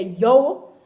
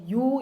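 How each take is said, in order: First: "yo" said with an open o, no u glide; "yo" punched out loud as patois; patois you. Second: Said in the usual way. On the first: Shown as a demonstration. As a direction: Jamaican "yo" for you. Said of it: "you say". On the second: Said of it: "Instead of saying".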